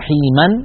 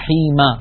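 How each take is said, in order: First: The word ends with an added -an sound. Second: The word ends without an added -an sound. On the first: "نقول رحيما" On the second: "بدلا من رحيم"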